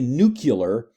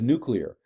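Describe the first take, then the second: First: The ending sounds like 'cular', with sounds swapped. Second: The ending sounds like 'clear', in standard order. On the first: The speaker calls it wrong. "to say nuclear instead of" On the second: The speaker calls it right. "instead of nuclear"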